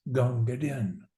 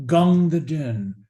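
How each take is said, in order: First: Soft, falling close on the name; hushed tribute. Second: Slow, swelling call of the name; reverent tribute. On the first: Soldier's final quiet farewell to Din, hushed. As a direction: let the name sink away quietly. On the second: Soldier honouring his water carrier, slow and reverent. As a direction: savour the name with admiration. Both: Acted. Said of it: "And finally says".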